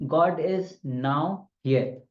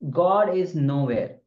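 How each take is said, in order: First: There is a break after now. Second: It is said with no break after now.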